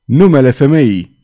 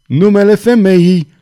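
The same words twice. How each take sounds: First: Loud, urgent demand; agitated loud outcry; shaken shout. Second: Louder, high-pitched desperate demand; escalating high outcry; shaken shout. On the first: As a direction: cry it out forcefully, shaken. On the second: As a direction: shout it at the top, badly shaken. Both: A narrator's reading. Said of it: "strigă cutremurat cavalerul".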